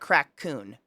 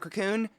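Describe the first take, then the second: First: The first syllable sounds like 'crack'. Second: The first syllable sounds like 'co'. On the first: The speaker calls it wrong. "then it sounds fucking horrible" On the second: The speaker calls it right. "It's a cocoon"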